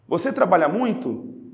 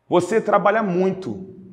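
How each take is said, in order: First: The voice rises at the end, like a question. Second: The voice falls at the end, like a statement. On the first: It asks a question. "Estou perguntando" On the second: It states a fact. "estou afirmando"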